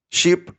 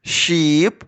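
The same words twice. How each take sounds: First: "sheep" said short and fast; quick short "sheep"; quickly. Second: "sheep" drawn out slowly; long slow "sheep". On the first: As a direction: pop the word out quickly. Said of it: "Швидко". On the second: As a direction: stretch the word for the kids. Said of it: "Повільно". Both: Shown as a demonstration.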